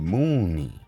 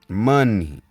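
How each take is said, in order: First: The first syllable sounds like the word moon. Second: The first syllable sounds like mun, short vowel. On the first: This is the original older form of the word. The speaker calls it right. "Moon-ni is how it was said back in the day" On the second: This is a later corrupted form of the word. The speaker calls it wrong. "The mispronunciation of moon-ni"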